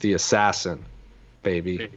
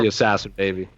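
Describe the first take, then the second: First: There is a pause before baby. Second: There is no pause before baby.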